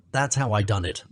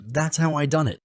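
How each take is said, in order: First: That's leaned on, level pitch; plain bragging repeat; plain boast. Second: How lifted high and pressed; triumphant repeat with how raised; stress on how. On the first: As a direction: stress on That's, falling. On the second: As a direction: hit how, higher boast. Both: Acted.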